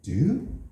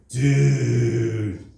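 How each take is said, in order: First: It is asked as a question. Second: It is drawn out very slowly. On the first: Are you all right? "you can ask a question like, hey, are you all right?" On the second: You really messed up. "if you say it really slow"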